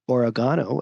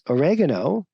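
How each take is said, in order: First: It is said the British way. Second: It is said the American way.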